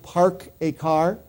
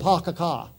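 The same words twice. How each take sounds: First: It is said in a general American accent. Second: It is said in a Boston accent. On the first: "they don't say it that way" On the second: "they say something like"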